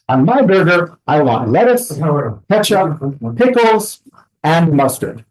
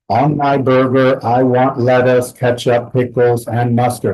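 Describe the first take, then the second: First: The pitch rises on each item in the list. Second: The list is said in a flat monotone. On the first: The speaker is still talking until the end. The speaker calls it right. "if it was natural ... we go up and up and up until we reach the end" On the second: It may come across as rude or offensive. The speaker calls it wrong. "If I was not using intonation"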